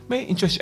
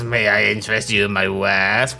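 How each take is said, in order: First: It is said in a plain, normal voice. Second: It is said in a put-on character voice.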